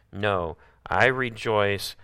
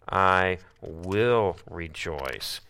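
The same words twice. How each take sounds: First: I stressed, very slow; slow emphatic. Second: WILL stretched, very slow; very slow emphatic. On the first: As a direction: plant I slowly. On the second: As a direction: draw WILL out slowly. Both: Shown as a demonstration.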